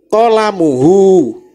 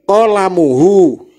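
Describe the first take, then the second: The two takes are said the same way.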